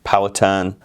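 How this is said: The name is said in an American pronunciation. "In the U S it's pronounced"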